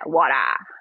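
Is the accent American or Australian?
Australian. It is said with an Australian accent.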